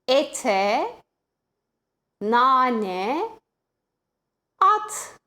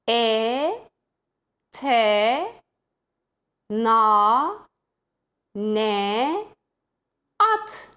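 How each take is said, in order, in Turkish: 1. Daha hızlı okunuyor, kelimeler bütün halinde. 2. Yavaş okunuyor, her seferinde bir hece.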